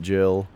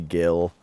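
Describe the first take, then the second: First: The word begins with a J sound. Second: The word begins with a hard G sound. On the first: This is how the speaker has always said it. "I always called it Jill" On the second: This is how the game's voice acting says it. "when they say it in the voice acting in this game"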